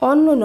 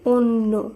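First: The first vowel is an open 'a' sound. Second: The first vowel is a rounded 'o' sound. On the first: The speaker calls it wrong. "অন্য নয়" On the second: The speaker calls it right. "শব্দটি শুদ্ধ উচ্চারণ হবে অন্য"

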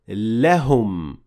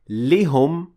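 First: The vowel after the l is 'a'. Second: The vowel after the l is 'i'. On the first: The speaker calls it right. "but we say lehum" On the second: The speaker calls it wrong. "we don't say lihum"

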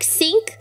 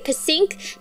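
First: The word begins with an S sound, no P. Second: The word begins with an audible P sound. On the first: "with a silent P, like sink" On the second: "do I say p-sink?"

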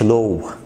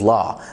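First: The vowel is closed and rounded, like 'low'. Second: The vowel is wide open, like 'aw'. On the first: The speaker calls it wrong. "ما تقولش Law" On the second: The speaker calls it right. "الـ AW بتتفتح"

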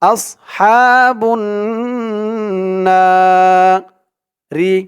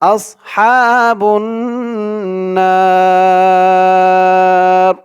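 First: The final ra keeps its short i vowel. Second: The na is lengthened and ra ends vowelless. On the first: The recitation continues without stopping. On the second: The recitation stops at this point.

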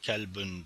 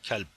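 First: The word ends with a final -ün ending. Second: The word ends abruptly on its final consonant. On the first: The speaker calls it wrong. "kelbün demiyoruz" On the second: The speaker calls it right. "kelp deyip kalıyoruz cümle bittiği zamanlarda"

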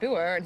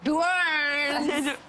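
First: It is said in a plain voice. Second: It is said in a camp voice.

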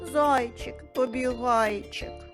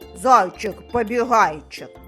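First: It is said in a sad, gloomy tone. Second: It is said in an angry, cross tone. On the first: "А тепер скажемо сумно" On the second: "Спробуємо сказати сердито"

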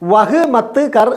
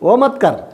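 First: The first word is said as 'vah'. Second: The first word is said as 'o'. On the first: "വഹ് മത്ത് കർ എന്ന് എഴുതും" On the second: "നമ്മൾ പറയുമ്പോൾ എങ്ങനെ പറയണം?"

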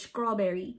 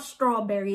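First: The word starts with a 'skr' sound. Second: The word starts with a plain 'str' sound. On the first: The speaker calls it right. "You got to put the C in it" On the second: The speaker calls it wrong. "It's not strawberry"

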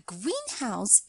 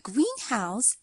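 First: The stress falls on house. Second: The stress falls on green. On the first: It is a house painted green. "the words green house is an adjective plus noun" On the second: It is a glass building for growing plants. "the word greenhouse is a compound noun"

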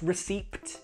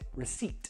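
First: A P sound is pronounced before the final T. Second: No P sound is pronounced before the final T. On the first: The speaker calls it wrong. "Not receipt, no" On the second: The speaker calls it right. "We pronounce it receipt"

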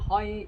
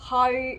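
First: The syllable is said on a low level pitch. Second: The syllable is said on a mid level pitch. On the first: "เสียงที่6 เป็นเสียงต่ำ" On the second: "เสียงที่3 หอย"

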